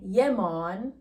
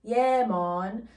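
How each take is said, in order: The two takes are said the same way.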